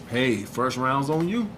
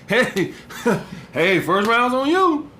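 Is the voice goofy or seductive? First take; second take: seductive; goofy. First: It is said in a calm, seductive voice. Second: It is said in a goofy, laughing voice.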